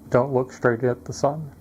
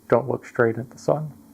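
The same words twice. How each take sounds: First: Background noise is audible behind the voice. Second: Background noise is suppressed behind the voice. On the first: "noise, no noise cancellation" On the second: "Now adding noise cancellation"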